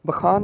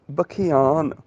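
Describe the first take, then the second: First: Said in the usual way. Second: ਬਖਿਆਨ with the added ਇਆ glide; ਬਖਿਆਨ, not ਬਖਾਨ; correct pronunciation. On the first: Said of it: "ਬਖਾਨ ਨਹੀਂ". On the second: Shown as a demonstration. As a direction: make the ਇਆ in ਬਖਿਆਨ clearly heard. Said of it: "ਇਹਦਾ ਉਚਾਰਨ ਹੋਏਗਾ".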